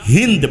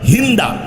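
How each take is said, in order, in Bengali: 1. নামটি একটি ব্যঞ্জনধ্বনিতে শেষ হয়। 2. নামটি একটি যোগ করা স্বরধ্বনিতে শেষ হয়। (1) "মেয়ের নাম হচ্ছে হিন্দ।" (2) "মানুষ বাংলায় উচ্চারণ করে হিন্দা"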